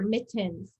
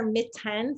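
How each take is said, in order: First: The second vowel is a reduced 'uh' sound. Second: The second vowel is a full, clear 'e'. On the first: The speaker calls it right. "you hear mittens. Um, so that schwa sound" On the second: The speaker calls it wrong. "You don't hear mittens"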